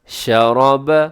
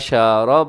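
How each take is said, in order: First: The first vowel is kept short. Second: The first vowel is drawn out long. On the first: The speaker calls it right. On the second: The speaker calls it wrong.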